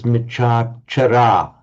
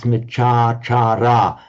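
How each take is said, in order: First: The middle vowel is cut short. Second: The middle vowel is held long. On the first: The speaker calls it wrong. "it comes out as Michachara" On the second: The speaker calls it right. "but it's not, it's Michachara"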